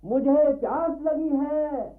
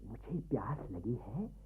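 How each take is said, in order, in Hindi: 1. यह ऊंची आवाज़ में बोला गया है। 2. यह धीमी आवाज़ में बोला गया है। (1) "इतनी ऊंची आवाज में बोलोगे तो नाटक देखना बंद करके लोग तुम्हें देखने लग जाएंगे।" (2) "ऐसे ना"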